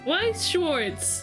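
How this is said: It is said with an English-style pronunciation. It is the name customers recognize for the game. "the name of the card game"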